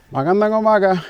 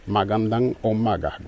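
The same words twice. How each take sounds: First: Magandang umaga sung out high and loud; greeting a passerby, high and loud; called-out greeting. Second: Said in the usual way. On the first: Real, not acted. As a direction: call it out across the path. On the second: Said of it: "So it's magandang umaga".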